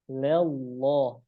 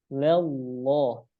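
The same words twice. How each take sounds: Both takes have the same delivery.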